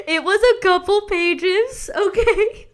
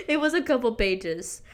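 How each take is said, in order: First: Laughing squeal. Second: Said in the usual way. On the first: Real, not acted. Embarrassed confession to viewers.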